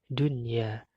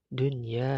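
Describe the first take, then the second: The two takes are said the same way.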